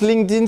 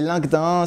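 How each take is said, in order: First: The name is pronounced the English way. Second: The name is pronounced the French way. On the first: "c'est peut-être la prononciation un peu plus anglaise" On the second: "c'est la prononciation française"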